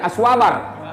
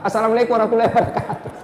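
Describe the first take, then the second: First: The greeting is squeezed into one short clipped word. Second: Every word of the greeting is fully pronounced. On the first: The greeting is rushed and incomplete. The speaker calls it wrong. "Ada juga yang lebih parah" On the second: The greeting is complete and sincere. The speaker calls it right. "sempurnakan salam kita"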